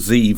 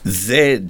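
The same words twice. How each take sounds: First: The letter is said as zee, American style. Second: The letter is said as zed, non-American style.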